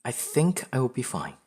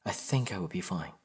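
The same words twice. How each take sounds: First: Higher, louder self-reassurance; upbeat, emphatic reassurance to oneself; self-assured. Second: Subdued, understated self-reassurance; self-doubt. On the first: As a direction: tell yourself confidently, lifted on "think". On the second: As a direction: reassure yourself without much conviction. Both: Acted. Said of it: "There's always self-doubt".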